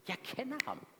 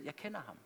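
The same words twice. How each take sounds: First: Higher, soft but insistent repeat; a tender, convinced second take of I know him; emphatic repeat. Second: Said in the usual way. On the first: Shown as a demonstration. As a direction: lift "Jeg kender ham" as a heartfelt echo.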